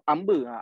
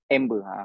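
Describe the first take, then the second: First: It is said with a Terengganu Malay accent. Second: It is said with an English accent. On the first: "Kalau orang Ganu dia sebut apa ni? Dia sebut amber" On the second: "Ni kita ni bukan orang Ganu. Ni orang putih"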